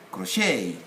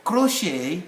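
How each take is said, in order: First: CROCHET stressed on the second syllable, cro-SHAY; American stress. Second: CROCHET stressed on the first syllable, CRO-shay; British stress. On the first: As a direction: lean on the last syllable of "crochet". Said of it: "American will say". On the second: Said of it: "where British will say". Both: Shown as a demonstration.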